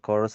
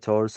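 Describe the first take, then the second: First: The word begins with a k sound. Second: The word begins with a ch sound. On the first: The speaker calls it wrong. "അല്ല കേട്ടോ" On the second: The speaker calls it right. "ചോഴ്സ് of ലൈഫാണ് pronunciation"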